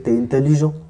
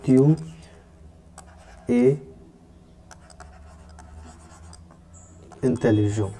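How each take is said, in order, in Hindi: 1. 'tu' का स्वर हटा दिया जाता है और मिल जाता है। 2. 'tu' का स्वर पूरी तरह बोला जाता है। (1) "मॉडर्न फ्रेंच में आजकल में जब भी हम प्रोनाउंस कर देंगे वी कैन से" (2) "ये दोनों हट नहीं हटेंगे"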